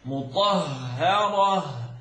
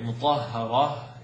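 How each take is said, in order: First: The sounds are articulated in an exaggerated, overdone way. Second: The sounds are articulated moderately, without overdoing. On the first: The speaker calls it wrong. "is exaggerated" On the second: The speaker calls it right. "is fine"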